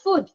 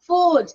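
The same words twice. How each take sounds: First: The vowel in the word is short. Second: The vowel in the word is long. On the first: The speaker calls it wrong. "not food" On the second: The speaker calls it right. "And O"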